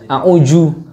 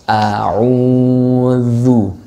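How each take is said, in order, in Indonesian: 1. Huruf tengah itu bunyi j. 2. Huruf tengah itu bunyi mirip th yang bersuara. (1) "yang a'uju apalagi udah jauh banget itu" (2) "ujung lidah bertemu dengan ujung gigi seri atas"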